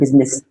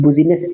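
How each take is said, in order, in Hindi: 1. इसे 'biz-ness' की तरह बोला जाता है, दो अक्षरों के साथ। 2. इसे 'bu-zi-ness' की तरह बोला जाता है, अक्षरों के अनुसार। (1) "इसका एग्ज़ैक्ट प्रोनाउंसिएशन होता है" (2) "स्पेलिंग के थ्रू हम इसको प्रोनाउंस करें तो बुज़िनेस पढ़ा जाता है"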